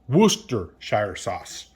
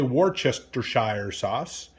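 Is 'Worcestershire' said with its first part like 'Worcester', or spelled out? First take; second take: like Worcester; spelled out. First: The first part of the word sounds like 'Worcester'. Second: Every written syllable of the word is sounded out. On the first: The speaker calls it right. "It's actually pronounced Worcester" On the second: The speaker calls it wrong. "I used to say"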